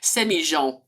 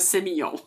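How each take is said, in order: First: The double L is said Argentine-style, like 'zh'. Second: The double L is said the usual French way.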